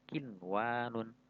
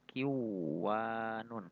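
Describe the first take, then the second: First: The n is pronounced clearly before the w. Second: The n is merged into the following w. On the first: The speaker calls it right. "tetap dibaca jelas" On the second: The speaker calls it wrong. "tidak boleh dibaca kiwanun"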